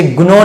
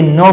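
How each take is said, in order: First: "ग्नो" with the g sounded before n; misread gnaw. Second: "नो" starting straight on n; silent g. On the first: Teacher warns pupils off a misreading, "ग्नो" with hard g. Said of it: "इसे ग्नो नहीं". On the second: Teacher gives pupils the right reading, "नो" without g. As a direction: drop the g, say "नो". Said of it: "इसे नो पढ़ेंगे". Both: Shown as a demonstration.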